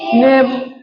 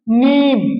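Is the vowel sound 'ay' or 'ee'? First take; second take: ay; ee. First: The vowel is a mid 'ay' sound. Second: The vowel is a long, clear 'ee' sound. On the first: "अगर यही या मजहूल लाता तो नेम पढ़ाता" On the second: "ये साफ साफ पढ़ाया"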